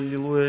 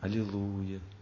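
First: The word is rattled off quickly. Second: The word is said slowly and unhurriedly. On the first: The prayer is said without feeling or attention. The speaker calls it wrong. "Вот люди в основном тараторят" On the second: The prayer is said with feeling and attention. The speaker calls it right. "во время молитвы не надо никуда торопиться"

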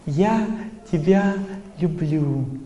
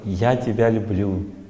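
First: It is said with showy outward emotion. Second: It is said simply, in a plain manner. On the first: The feeling does not ring true. "Это эмоциональное повторение не вставляет" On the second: It is better but still lacks depth. "говорит просто «я тебя люблю», опираясь на свое настроение внутреннее"

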